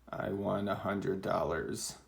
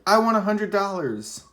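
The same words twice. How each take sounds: First: It is said flatly, without excitement. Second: It is said with excitement.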